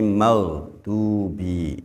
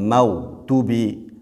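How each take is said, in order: First: The du vowel is held long. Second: The du vowel is held short. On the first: The speaker calls it right. "tapi maghdubi nggih. Kemudian du itu adalah mad tabi'i" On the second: The speaker calls it wrong. "Jangan maghdubi"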